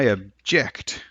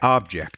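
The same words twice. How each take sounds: First: The stress is on the second syllable. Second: The stress is on the first syllable. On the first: The word is a verb. "that's where the stress is" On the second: The word is a noun. "you stress the first syllable"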